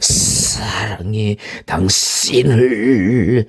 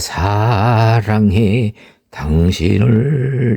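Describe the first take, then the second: First: The voice sounds crisp and sharply vivid. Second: The voice sounds ordinary and plain. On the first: "크리스피는" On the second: "이게 인정 일반적인 소리라면"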